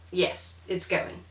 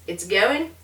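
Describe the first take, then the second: First: Slow "Yes, it's going." settling down; statement tune. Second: "It's going?" with a rising end; question tune. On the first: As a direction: answer slowly, no rise on GOING. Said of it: "and a statement". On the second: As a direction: ask it, lifting GOING. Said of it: "phrased as a question". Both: Shown as a demonstration.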